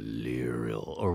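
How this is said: The vowels in the name are drawn out. The speaker comes from the south. "you can lengthen all the vowels if you're from, say, Tethyr, Kalimshan"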